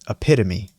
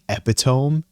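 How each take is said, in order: First: It is pronounced the usual standard way. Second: It is pronounced the way it is spelled. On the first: The speaker calls it right. "but it's epitome" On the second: The speaker calls it wrong. "the way it's spelled, you would read it like"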